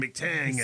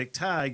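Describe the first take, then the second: First: The name ends with a nasal 'tang' sound. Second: The name ends with a plain 'tag' sound. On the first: The speaker calls it wrong. "It was Smithy and McTang" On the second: The speaker calls it right. "rather than Smithy and McTag"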